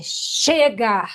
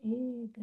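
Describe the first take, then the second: First: Forceful, drawn-out cry; shout of release. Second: Very soft, feeble demo; half-hearted cry. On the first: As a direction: let the shout go fully. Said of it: "Dá o seu grito soltando". (grito solto, com força) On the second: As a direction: say it weakly, holding the shout back. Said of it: "Não é "chega", não". (grito contido, bem baixinho) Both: Shown as a demonstration.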